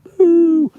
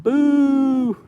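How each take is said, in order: First: A shrieking, much higher and louder cartoon "boo"; hammed-up boo. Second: A much higher, slightly louder cartoon "boo"; mock boo. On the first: Booing the bindweed a second time, hammed-up shrieking boo. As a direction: boo it at the top of your lungs, pantomime style. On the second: Booing the bindweed found in his lawn, high mock boo. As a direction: boo the weed like a pantomime villain.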